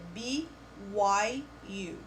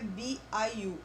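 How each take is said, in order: First: The middle letter sounds like 'why'. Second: The middle letter sounds like 'eye'. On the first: The speaker calls it right. "é B Y U" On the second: The speaker calls it wrong. "Não é B I U"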